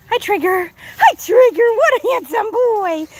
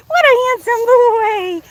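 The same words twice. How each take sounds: First: High, slow cooing praise; pet talk. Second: Higher, louder, slower sing-song cooing; stronger pet talk. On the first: Owner admiring her goat Trigger, high slow pet talk. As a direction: coo over him like a proud owner. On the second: Owner gushing over her goat Trigger, exaggerated pet talk. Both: Real, not acted.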